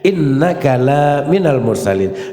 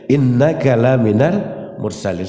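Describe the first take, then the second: First: The vowel in 'la' is drawn out long. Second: The vowel in 'la' is short. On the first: Muhammad is not a messenger. The speaker calls it wrong. "la itu dipanjangin" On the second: Muhammad is truly a messenger. The speaker calls it right. "Itu tulisan innaka laminal mursalin"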